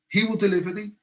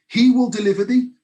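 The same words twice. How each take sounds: First: Said in the usual way. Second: Louder and higher, proclaiming it; loud declaration. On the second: Retold or imitated. King declaring to Daniel's God, loud and high. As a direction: ring it out like a royal decree.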